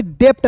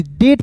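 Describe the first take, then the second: First: डेप्ट said as "dept", with the b sounded as p; wrong pronunciation. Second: डेट said as "det", with no b sound; correct pronunciation. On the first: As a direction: show the mistake डेप्ट with a p in it. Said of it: "डेप्ट नहीं पढ़ेंगे". (डेप्ट वाला गलत उच्चारण) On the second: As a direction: say डेट cleanly, the b left silent. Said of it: "डेट पढ़ेंगे". (डेट का सही उच्चारण, बी silent) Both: Shown as a demonstration.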